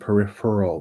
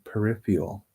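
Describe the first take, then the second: First: The last syllable sounds like 'earl'. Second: The last syllable sounds like 'eel'. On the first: The speaker calls it right. "which is the proper way to say it" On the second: The speaker calls it wrong. "people will often say eel"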